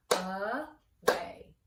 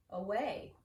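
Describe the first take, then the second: First: AWAY split into two beats, a loud drawn-out A, then WAY; syllable by syllable. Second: Said in the usual way. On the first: Shown as a demonstration. Teacher clapping out syllables with the class, AWAY in two separate beats. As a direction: clap out AWAY with a gap between syllables. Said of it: "Let's clap it out". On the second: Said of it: "write that one one more time".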